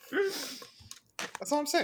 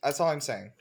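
First: "That's all I'm saying." sung out high and slow, rising at the end; drawn-out singsong. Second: Said in the usual way. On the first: Shown as a demonstration.

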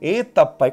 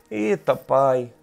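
First: Worried sigh to God. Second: Lower, slow and softer, a drawn-out sigh; despairing sigh. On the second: Anxious believer sighing to God, slow and low. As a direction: let it sink, slow and heavy. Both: Shown as a demonstration. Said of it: "Oração".

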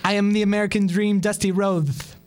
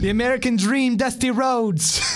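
First: Quick take, lisping the s in Rhodes as a th sound; Dusty lisp. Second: Slow stretched wrestler promo; long drawn-out Dusty. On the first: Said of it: "or you gotta get the lisp". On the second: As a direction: drag out every word, slowly. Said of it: "the long, drawn-out thing". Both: Retold or imitated.

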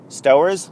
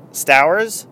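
First: "Stowers" with first vowel as in "go"; louder, questioning "Stowers" with an OH sound; chosen pronunciation. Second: "Stowers" with first vowel as in "cow"; louder, questioning "Stowers" with an OW sound; alternative pronunciation. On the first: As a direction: say "Stowers" like STOH-erz, trying it out. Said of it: "let's call him Stowers". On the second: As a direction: say "Stowers" to rhyme with "flowers", trying it out. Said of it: "not sure how you pronounce his name". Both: Shown as a demonstration.

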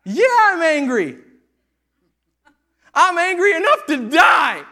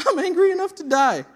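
First: Slow, loud, high furious yell; furious shout. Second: Loud, high, less shouted retelling; repeated angry quote. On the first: Jonah shouting back at God over the plant, furious. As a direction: shout it like a sulking prophet. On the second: Preacher repeating Jonah's words to the church, mock angry. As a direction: repeat it with amused disbelief. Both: Acted. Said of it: "That's what he says".

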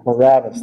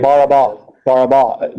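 First: Barabbas said the usual English way, ending in an s; wrong way. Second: Barabba with no final s, stress on the last syllable ba; right way. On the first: Teacher saying the common version, Barabbas, in plain English. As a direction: give Barabbas with the final s sound. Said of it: "that's not how you would translate it". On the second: Teacher gives the Aramaic name Barabba, stress at end. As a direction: say Barabba, landing on the end ba a bit louder. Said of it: "the emphasis always at the end". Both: Shown as a demonstration.

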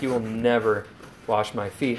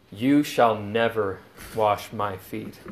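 First: Quiet but insistent refusal; emphatic refusal. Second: Slow, weighty stress on You; firm retold refusal; emphatic refusal. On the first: Retold or imitated. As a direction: stress rising on never, said softer. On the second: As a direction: lean hard on You, slowly, in "You shall never wash my feet". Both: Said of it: "Peter is emphatic".

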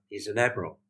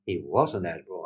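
First: Said in the usual way. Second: "was" leaned on as a correction; firm emphasis on the word "was"; stress on WAS. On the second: Retold or imitated. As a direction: correct them by hitting "was".

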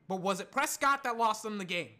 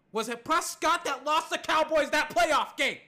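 First: Said in the usual way. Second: Loud, high indignant question; heated challenge. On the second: Real, not acted. Host challenges fans blaming Prescott for playoff loss, heated. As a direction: demand an answer, voice raised.

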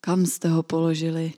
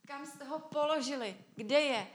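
First: Said in the usual way. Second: Hushed, higher, troubled question; agitated, high hushed voice; deeply moved. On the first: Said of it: "jak neříká". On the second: Acted. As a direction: ask it very softly, shaken with emotion. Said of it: "Je rozrušen, pohnut v duchu".

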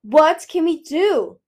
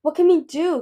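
First: Loud, slow, high demand; drawn-out, forceful, desperate demand. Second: Raised, urgent question to a friend; worried, higher and louder; anxious question. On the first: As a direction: round on someone with the question. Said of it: "he whirled on Peril". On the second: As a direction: ask anxiously for help. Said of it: "Kibbley asked Moon". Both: A narrator's reading.

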